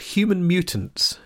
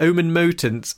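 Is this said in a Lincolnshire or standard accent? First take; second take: standard; Lincolnshire. First: Said in a plain accent with the h sounded. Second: Said in a Lincolnshire accent with the h dropped.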